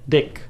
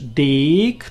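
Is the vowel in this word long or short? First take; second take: short; long. First: The vowel is said short. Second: The vowel is said long. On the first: "Jak powiesz krótką, to jest rozumiane jako dick, krótkie" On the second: "A jak powiesz dick, to jest długie"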